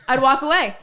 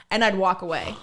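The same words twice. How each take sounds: First: "I'd walk away" louder and higher, falling on "away"; emphatic repeat. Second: Said in the usual way. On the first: Real, not acted. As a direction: punch "away" hard and louder. Repeats line for punch.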